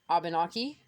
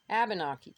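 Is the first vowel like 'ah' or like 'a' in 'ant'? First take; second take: ah; a in ant. First: The first vowel sounds like 'ah' in 'aunt'. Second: The first vowel sounds like 'a' in 'ant'. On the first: "the A sounds like an ah, as in Abenaki or aunt" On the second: "it also can sound like an A, as in ant"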